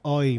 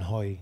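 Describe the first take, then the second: First: It starts with a vowel, with no h sound. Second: It starts with an audible h sound. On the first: This is how Spanish speakers actually say it. The speaker calls it right. "أوي ما يقولون هوي" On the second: This is not how Spanish speakers say it. The speaker calls it wrong. "ما يقولون هوي"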